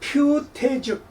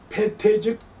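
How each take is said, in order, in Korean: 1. 첫 음절은 퓨로 발음합니다. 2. 첫 음절은 배로 발음합니다.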